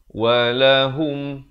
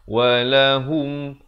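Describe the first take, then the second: The two takes are said the same way.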